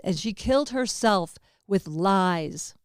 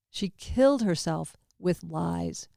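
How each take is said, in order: First: Slow, weighty, leaning on "killed"; stress on killed. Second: Slower repeat, leaning on "killed"; slower quiet repeat. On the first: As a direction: press hard on the word "killed". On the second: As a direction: say it again slowly, settling on "killed". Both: Shown as a demonstration.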